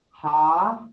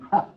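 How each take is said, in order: First: The vowel is held long. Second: The vowel is kept short.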